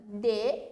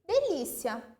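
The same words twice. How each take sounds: First: "De-li-ci-a" in four separated syllables; teacher sounding out "De-li-ci-a" piece by piece. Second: Said in the usual way. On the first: Shown as a demonstration. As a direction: break "De-li-ci-a" apart, pausing after each syllable. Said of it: "separando em sílaba".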